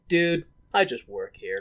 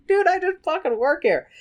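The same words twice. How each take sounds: First: Lower, understated bartender aside; deadpan bartender. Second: High-pitched mock American barkeep; American bartender. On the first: Retold or imitated. Bartender fending off drunk Raoul, low understated deadpan. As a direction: say it low, half-amused, lightly acted. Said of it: "bartender's face is like". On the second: Bartender fending off drunk Raoul, high exaggerated protest. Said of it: "the bartender's like".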